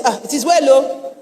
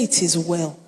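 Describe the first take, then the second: First: Mock resigned sigh of sympathy. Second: Low, soft, settled statement of faith; quiet assurance. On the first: Preacher mimics church folk reacting to bad news, mock resigned. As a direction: imitate helpless churchgoers consoling someone. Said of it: "That's how we use "It is well". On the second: Retold or imitated. Preacher voices bereaved mother answering her husband, quietly assured. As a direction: say it softly as a settled fact. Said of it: "that's not how she used it".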